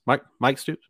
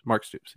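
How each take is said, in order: First: "Mike Stoops?" asked with a rising, doubtful tune; unsure question. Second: Said in the usual way. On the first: Shown as a demonstration.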